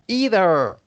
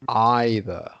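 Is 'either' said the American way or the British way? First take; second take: American; British. First: It is said with an American pronunciation. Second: It is said with a British pronunciation. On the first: "the Americans would say either" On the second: "but the British would say either"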